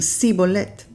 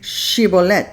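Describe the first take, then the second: First: The word begins with a plain 's' sound. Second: The word begins with an 'sh' sound. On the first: This form gives the speaker away as an Ephraimite. "ellos decían Sibolet, no podían decir el Sh" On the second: This is the form the Gileadites asked for. "Ellos no podían decir Shibolet"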